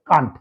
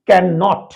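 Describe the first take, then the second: First: It is said contracted as one syllable. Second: It is said in full as two syllables. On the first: "সেটার উচ্চারণ হবে কান্ট" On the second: "এরকম ভাবে বললে তুমি ক্যান নট"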